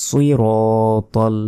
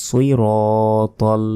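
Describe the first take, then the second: Both takes have the same delivery.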